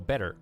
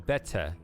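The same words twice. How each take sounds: First: The T is soft and the final R is full. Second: The T is crisp and the final R is dropped. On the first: "we pronounce our R's R ... we put less emphasis on the T" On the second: "you care more about the T than the R. You can schwa the R"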